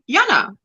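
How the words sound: The name is said with an Afrikaans pronunciation. "in Afrikaans, we say Jana"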